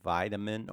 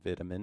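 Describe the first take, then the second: First: It is said with an American pronunciation. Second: It is said with a British pronunciation.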